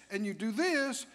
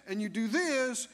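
No difference in how they are said.

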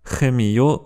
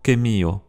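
First: "Chemio" starting with a kh rasp; "Chemio" said khe-mi-o; throaty CH. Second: "chemio" starting with a hard k; K instead of CH. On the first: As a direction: open "Chemio" like German ach. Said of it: "ch, un son qui existe en allemand". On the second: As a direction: open "chemio" with a clean k. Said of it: "remplacé par k". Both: Shown as a demonstration.

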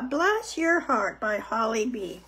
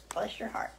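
First: Said in the usual way. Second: Soft aside. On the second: Acted. Repeats title softly.

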